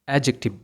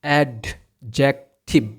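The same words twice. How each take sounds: First: The d sound is left silent. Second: The d sound is clearly pronounced. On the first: The speaker calls it right. "এটার উচ্চারণ হবে অ্যাডজেক্টিভ" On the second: The speaker calls it wrong. "এটাকে আমরা উচ্চারণ করি অ্যাডজেক্টিভ, কিন্তু এটার উচ্চারণ অ্যাডজেক্টিভ হবে না"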